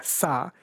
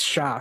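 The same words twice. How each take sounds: First: "sa" with a plain s; "sa", s rather than sh; sa sound. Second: "sha", sh rather than s; sha sound. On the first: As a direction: say "sa" as a separate syllable starting with s. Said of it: "if you're Tamil influenced in Kerala". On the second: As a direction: say "sha" as a separate syllable starting with sh. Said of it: "and everyone else says sha". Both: Shown as a demonstration.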